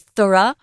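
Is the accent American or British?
British. It is said with a British accent.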